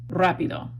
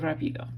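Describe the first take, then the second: First: The stress is on the first syllable. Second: The stress is on the second syllable. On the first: The speaker calls it right. "this one is making you say rapido" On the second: The speaker calls it wrong. "The emphasis in Spanish is automatically on the second to last syllable"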